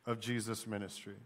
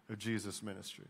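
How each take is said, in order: Both takes have the same delivery.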